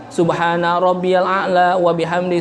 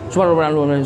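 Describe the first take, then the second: First: It is recited slowly and clearly. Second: It is recited fast and unclearly. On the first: This is the proper way to recite it. The speaker calls it right. "Itu wajar" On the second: The recitation is rushed and not clear. The speaker calls it wrong. "Baca tiga kali tapi cepet, nggak jelas"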